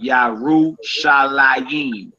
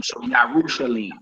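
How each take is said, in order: First: Yarushalayim drawn out slowly, ending la-YIM; biblical reading. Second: Yarushalim said quickly, ending LEEM, no ayim; current reading. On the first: Teacher contrasting the biblical Yarushalayim, slow. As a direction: stretch Yarushalayim with its extra ending. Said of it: "biblical spelling". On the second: Teacher contrasting the modern Yarushalim, quieter. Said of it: "rather than the current spelling". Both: Shown as a demonstration.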